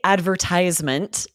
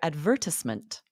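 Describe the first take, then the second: First: It is said with an American pronunciation. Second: It is said with a British pronunciation. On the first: "we say advertisement in the U S" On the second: "in England, you would likely hear advertisement"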